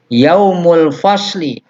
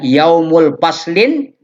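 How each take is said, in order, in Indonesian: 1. Kata terakhir berakhir dengan vokal i biasa. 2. Kata terakhir berakhir dengan bunyi n tambahan.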